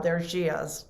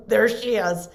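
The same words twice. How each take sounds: First: Said in the usual way. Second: A laugh then louder, mock exasperated; laughing mock groan. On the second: Nurses mocking the protective wife, laughing. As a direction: laugh as you groan at her arrival. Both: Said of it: "they would be".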